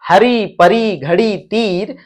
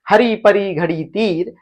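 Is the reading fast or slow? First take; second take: slow; fast. First: The words are read slowly. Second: The words are read quickly.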